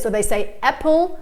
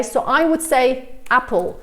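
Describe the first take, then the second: First: "apple" with the A pushed toward an E sound, "epple"; learner's "apple". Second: "apple" with a flat open A as in cat; teacher's model "apple"; British apple. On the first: Retold or imitated. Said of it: "pronounce the A like an uh sound". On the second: Shown as a demonstration. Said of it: "but an American might say".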